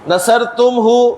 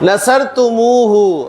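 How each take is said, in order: First: Tum joins hu with no vowel between. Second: An extra u vowel comes before hu. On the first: It has no rhythm or weight. The speaker calls it wrong. "लेकिन अरब को नहीं अच्छा लगा।" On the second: It gains a poetic rhythm and weight. The speaker calls it right. "बल्कि आपने इसको बोलना है नसर तुमू हु"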